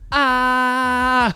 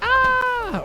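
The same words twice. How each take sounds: First: The pitch stays level as one loud note. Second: The pitch moves up or down through the sound. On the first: "there's no inflection behind it or anything like that. It's just" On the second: "it's not like"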